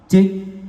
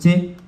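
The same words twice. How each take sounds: First: The voice echoes like in a large hall. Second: The voice has a robotic, metallic effect. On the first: "Wah, ini hall-nya ya" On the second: "Ini kayak suara robot"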